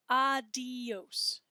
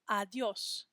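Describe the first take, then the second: First: ADIOS drawn out as ah-dee-ohs; three-syllable adios. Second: ADIÓS as ah-dyohs, the di gliding into os; two-syllable adiós. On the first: Teacher shows class the mistake, adios in three slow syllables. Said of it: "two syllables and not three". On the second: Teacher corrects the class, adiós in two syllables. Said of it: "say that with two syllables". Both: Shown as a demonstration.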